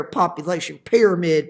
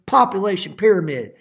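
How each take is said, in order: First: Said in the usual way. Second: Population pyramid repeated louder, Population stressed; emphatic repeat. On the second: Shown as a demonstration. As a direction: hammer Population pyramid home for the class.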